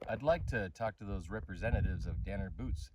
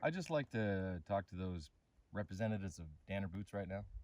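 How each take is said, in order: First: It is said at a louder volume. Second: It is said at a quieter, normal volume.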